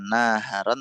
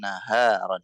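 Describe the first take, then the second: First: The stress falls on the first syllable. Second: The stress falls on the long second syllable. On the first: The speaker calls it wrong. "Jadi kayak naharon itu yang ditekan bukan nanya. Jadi bukan naharon" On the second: The speaker calls it right. "huruf yang panjang, yang mat itu antum tekan"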